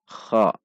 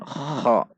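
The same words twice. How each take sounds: First: "Kha" dengan gesekan kh ringkas dan halus; lebih halus. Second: "kha" dengan gesekan tenggorokan kasar dan panjang; riak kasar. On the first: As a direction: gesek kh tipis pada "Kha". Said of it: "namun dibaca lebih halus". ("Kha" tanpa riak kasar) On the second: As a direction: seret kh kuat-kuat pada "kha". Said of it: "riaknya tidak kasar". (contoh salah: "kha" beriak) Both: Shown as a demonstration.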